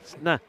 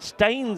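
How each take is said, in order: First: A nasal vowel with no final S. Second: A plain vowel, clear N and final S. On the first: "you've got to get that N sound from your nostrils" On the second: "Staines is how we would say it"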